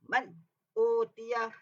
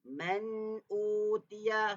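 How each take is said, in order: First: The n is cut off abruptly without hum. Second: The n carries a slight nasal hum. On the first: The speaker calls it wrong. "jangan baca terkejut-terkejut" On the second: The speaker calls it right. "Ada dengung, hmm, ada dengung sedikit"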